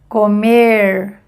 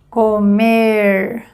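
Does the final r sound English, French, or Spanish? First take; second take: English; English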